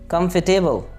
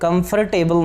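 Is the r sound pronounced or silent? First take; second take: silent; pronounced. First: The r sound is silent. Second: The r sound is pronounced. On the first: The speaker calls it right. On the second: The speaker calls it wrong.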